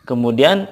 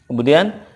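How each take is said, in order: Both takes have the same delivery.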